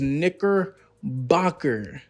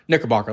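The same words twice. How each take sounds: First: The word is said slowly. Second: The word is said quickly. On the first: The speaker calls it wrong. "it sounds worse when you slow it down" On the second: The speaker calls it right. "like just get it out the way"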